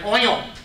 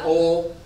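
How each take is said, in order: First: The word has a general non-Southern pronunciation. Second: The word has a Southern American pronunciation. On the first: "I don't say oil" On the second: "I pronounce it the dumb Southern racist way"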